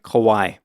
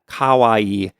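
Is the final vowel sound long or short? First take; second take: short; long. First: The final vowel is cut short. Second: The final vowel is stretched out long. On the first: The speaker calls it wrong. "that sounds like kowai" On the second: The speaker calls it right. "you got to stretch out the I a little bit"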